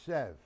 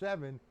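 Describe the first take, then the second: First: The word is clipped short to one syllable. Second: The word is said fully with two syllables. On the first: It keeps the count flowing. The speaker calls it right. "When you hit seven, it's sev" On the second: It breaks the rhythm of the count. The speaker calls it wrong. "If you go seven, it disrupts the flow"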